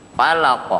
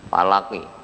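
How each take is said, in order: First: The word ends on a bounced q with no vowel. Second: The word ends with a short i vowel. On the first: The reader pauses at the end of the verse. "di sini falaq" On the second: The word is read as written, joined to what follows. "Ini tulisannya falaki"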